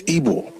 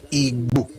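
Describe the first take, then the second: First: Igbo said as Ibo, with no g sound; soft b pronunciation. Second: Igbo with a full gb sound, lips and back of tongue together; hard gb pronunciation. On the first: Showing how the name is really pronounced, Igbo said as Ibo. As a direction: say Igbo like I-B-W-O, the g dropped. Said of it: "as it is pronounced is I B W O". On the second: Correcting people on the name, Igbo with a full gb. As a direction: say Igbo with a heavy gb, not a plain b. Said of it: "they still don't pronounce it like". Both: Shown as a demonstration.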